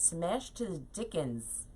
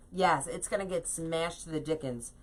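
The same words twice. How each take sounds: First: Slow, softer, turning the odd phrase over; amused disbelief. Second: Said in the usual way. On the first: Real, not acted. Repeating her own quaint phrase to viewers, slow and bemused. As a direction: echo your own words as if someone else said them. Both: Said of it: "I don't speak like that".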